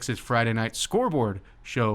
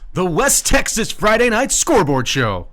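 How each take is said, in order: First: It is said plainly, without extra energy. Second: It is said with extra energy and flair.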